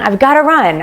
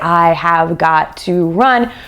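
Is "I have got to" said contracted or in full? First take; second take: contracted; full. First: The words are contracted and run together. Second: Every word is said separately and in full. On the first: The speaker calls it right. "We say I've, I've gotta run" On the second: The speaker calls it wrong. "we don't say I have got to run"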